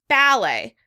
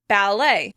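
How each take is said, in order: First: The stress is on the first syllable. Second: The stress is on the second syllable. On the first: "with stress on the first syllable" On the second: "by stressing it on the second syllable"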